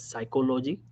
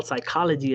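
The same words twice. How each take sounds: First: "psychology" said as sy-ko-LO-jee; mispronounced "psychology". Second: Said in the usual way. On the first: Shown as a demonstration. Coach mimics foreign doctors' mistake, "psychology" as psy-ko-LO-jee. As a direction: give "psychology" full O sounds, psy-ko-lo-jee. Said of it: "they, they talk like this". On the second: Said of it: "This is not how we talk in the U S".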